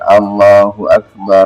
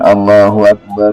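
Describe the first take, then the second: First: The final r of Akbar carries an 'a' vowel. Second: The final r of Akbar lacks an 'a' vowel. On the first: The speaker calls it right. "memfathahkan ra yang pertama dan mensukunkan ra yang kedua" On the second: The speaker calls it wrong.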